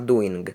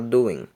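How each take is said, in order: First: It ends with a nasal plus a hard g. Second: It ends with only a nasal ng sound. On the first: The speaker calls it wrong. "Você não fala doing" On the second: The speaker calls it right. "você fala doing"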